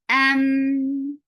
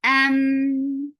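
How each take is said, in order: First: The m sound continues with a medium flow. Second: The same.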